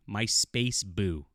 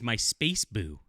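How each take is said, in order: First: Very slow, stretched space boo; drawn-out mock quote. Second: Said in the usual way. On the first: Villain calling out to Holly Hunter, slow drawn-out mockery. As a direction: drag out my space boo like a cringey line. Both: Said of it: "but he says".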